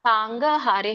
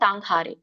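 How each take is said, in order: First: A vowel separates the g and h sounds. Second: The g and h form one aspirated consonant. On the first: The speaker calls it wrong. "ಹೇಳ್ಬೇಡಿ" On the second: The speaker calls it right. "ಅಲ್ಲಿ ವ್ಯಂಜನ ಇದೆ"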